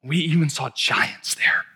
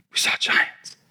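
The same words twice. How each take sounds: First: Said in the usual way. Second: We saw giants whispered, no voice. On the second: Retold or imitated. Spies reporting giants.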